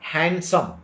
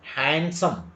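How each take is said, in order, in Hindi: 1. D की ध्वनि छोड़ दी जाती है। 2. D की ध्वनि छोड़ दी जाती है।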